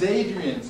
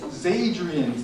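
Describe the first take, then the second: First: The word starts with a plain vowel sound. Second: The word starts with a linked z sound. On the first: The speaker calls it wrong. "Adrian's じゃなくて" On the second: The speaker calls it right. "Zadrian's の発音になります"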